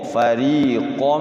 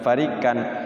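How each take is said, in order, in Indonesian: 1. Konsonannya adalah q yang berat dengan vokal seperti o. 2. Konsonannya adalah k depan yang ringan. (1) "farikan hurufnya qaf, qaf" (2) "Bukan farikan"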